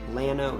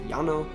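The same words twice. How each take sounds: First: The word is said with an English pronunciation. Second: The word is said with a Spanish pronunciation. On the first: "Texans typically produce it Llano instead" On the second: "the Spanish pronunciation of the word is llano"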